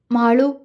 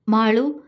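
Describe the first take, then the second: First: A name with a slight break in it; faltering call. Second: A lower, gentle call of her name; loving call. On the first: Vinod calls Malu after she pushes his hand away, faltering. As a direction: call her name, voice catching. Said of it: "അവൻ ഇടർച്ചയോടെ വിളിച്ചു". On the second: Vinod calls Malu when she smiles, lovingly. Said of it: "അവൻ സ്നേഹത്തോടെ വിളിച്ചു". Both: A narrator's reading.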